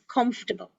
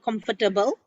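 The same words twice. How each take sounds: First: The word is said with three syllables. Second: The word is said with four syllables. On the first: The speaker calls it right. "It is comfortable" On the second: The speaker calls it wrong. "not four syllables, not comfortable"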